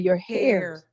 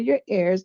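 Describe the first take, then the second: First: Ears starts with an added h sound. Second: Ears starts without an h sound. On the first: This is how some Jamaicans say it. "they say your hairs" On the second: This is the standard way of saying it. "they don't say your ears"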